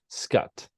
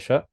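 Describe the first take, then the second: First: The name begins with a hard K sound. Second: The name begins without a hard K sound. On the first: The speaker calls it right. "Scott with a hard C" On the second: The speaker calls it wrong. "Am I pronouncing the, your last name correctly?"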